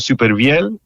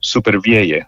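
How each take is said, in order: First: The name is pronounced the French way. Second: The name is pronounced the Cuban Spanish way. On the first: This is the original pronunciation of the name. "es un nombre francés que se pronuncia Supervielle" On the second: This is how it is said where the speaker is from. "soy cubano donde lo pronuncian Supervielle"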